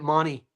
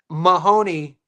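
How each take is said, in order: First: The name is said the Australian way. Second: The name is said the American way.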